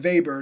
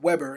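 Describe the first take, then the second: First: The name is pronounced the German way. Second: The name is pronounced the English way. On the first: The speaker calls it right. "I am saying Weber" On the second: The speaker calls it wrong. "not Weber"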